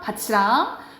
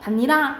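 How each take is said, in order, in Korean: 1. 중간 자음은 'ch' 소리예요. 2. 중간 자음은 겹친 'nn' 소리예요. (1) "국외음화가 적용되면 받치랑" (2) "니은 첨가 그 다음에 비음화 일어나서 결과적으로 반니랑 이렇게 발음이 난다"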